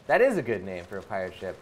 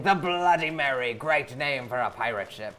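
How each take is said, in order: First: Said in the usual way. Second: Lightly voiced pirate. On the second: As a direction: read it like a pirate captain. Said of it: "I will read it out in a pirate voice".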